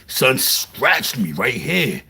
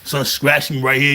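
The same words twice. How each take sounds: First: "Son scratched me right here" said slowly and a little lower, each word leaned on; slow emphasis. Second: Said in the usual way. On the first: Shown as a demonstration. Telling listeners about the box cutter cut, slow and heavy.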